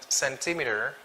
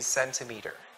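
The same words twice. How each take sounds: First: The stress is not on the first syllable. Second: The stress is on the first syllable. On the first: This is how other speakers say it. The speaker calls it wrong. "the other Americans would pronounce it cent centimeter" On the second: This is the standard way to say it. The speaker calls it right. "the correct way it's really centimeter. The stress then is falls on the first syllable"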